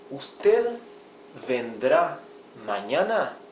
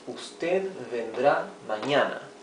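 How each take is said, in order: First: The voice rises at the end, as a question. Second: The voice falls at the end, as a statement.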